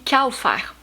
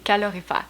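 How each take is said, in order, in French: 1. Les sons du milieu sont supprimés, ce qui donne un mot raccourci. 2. Chaque syllabe est prononcée, y compris le son L. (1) "j'ai toujours dit calfère, parce que c'est comme ça que je l'entends" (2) "je dois prononcer le L. Alors, je suis capable de dire calorifère"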